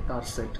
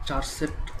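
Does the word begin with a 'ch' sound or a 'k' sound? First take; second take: k; ch. First: The word begins with a 'k' sound. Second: The word begins with a 'ch' sound. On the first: "আসলে কার সেটটা হচ্ছে main উচ্চারণ" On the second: "আসলে এটিকে চার set কেউ বলে"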